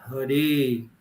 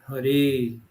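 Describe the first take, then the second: The two takes are said the same way.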